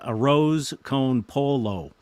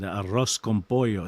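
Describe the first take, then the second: First: It is said with a plain American accent. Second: It is said with a Spanish accent. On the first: It makes the food sound less appealing. The speaker calls it wrong. "instead of me saying" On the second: It makes the food sound appealing. The speaker calls it right. "if you want to talk like you're Spanish"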